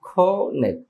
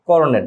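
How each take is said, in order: First: The r sound is left out. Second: The r sound is clearly pronounced. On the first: The speaker calls it right. "Just এখানে আর এর উচ্চারণটা হবে না" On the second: The speaker calls it wrong. "তারপর আমরা বলি কর্নেট"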